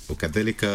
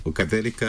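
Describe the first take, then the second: No difference in how they are said.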